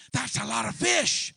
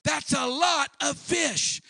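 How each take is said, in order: First: Said in the usual way. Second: Higher, slower, louder on lot; emphatic exclamation. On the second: Acted. Preacher marveling at the catch, emphatic exclamation. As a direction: stretch it out in amazement.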